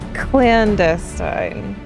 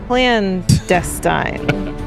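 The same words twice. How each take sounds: First: The stress is on the second syllable. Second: The stress is on the first syllable. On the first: The speaker calls it right. "it's the emphasis on the second one, not the first one" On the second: The speaker calls it wrong. "Here's what you're doing"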